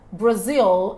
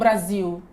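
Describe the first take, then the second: First: The word ends with a clear L sound. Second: The word ends with a U-like vowel sound. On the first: The speaker calls it right. "com o L certinho" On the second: The speaker calls it wrong. "e não Brasil ... fica parecendo um U"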